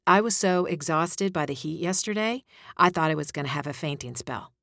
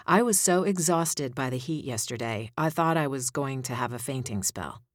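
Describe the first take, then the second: First: Relaxed read, gonna for going to, G dropped; casual sloppy diction. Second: Said in the usual way. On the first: Shown as a demonstration. Coach demonstrating a casual read to former radio hosts. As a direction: sound like an average Joe, not a voice actor. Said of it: "let me see if I can put this in a sentence". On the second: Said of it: "You hear how different that sounds than".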